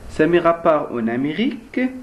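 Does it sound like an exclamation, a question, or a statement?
question. It is said as a question. It asks a question. "On pose une question"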